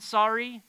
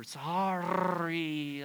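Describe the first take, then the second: First: Said in the usual way. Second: "sorry" with a long, rolled R; mock-penitent "sorry", vowels and R stretched out. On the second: Shown as a demonstration. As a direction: draw out "sorry", trilling the R theatrically. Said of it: "roll your O and U and your R".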